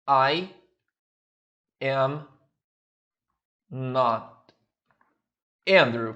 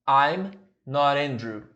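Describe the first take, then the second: First: Each word is said fully and separately. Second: The words run together; the t sounds like r. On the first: The speaker calls it wrong. "Você poderia falar assim" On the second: The speaker calls it right. "procura sempre ligar os sons"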